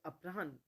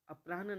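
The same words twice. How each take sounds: First: The h sound comes before the n sound. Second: The n sound comes before the h sound. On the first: The speaker calls it right. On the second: The speaker calls it wrong.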